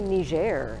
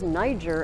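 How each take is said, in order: First: It is said the local French-like way. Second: It is said the Americanized English way. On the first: This is the newer pronunciation closer to the locals. "somehow it's suddenly Niger" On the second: This is the older familiar pronunciation. "for the whole time I grew up, Niger was Niger"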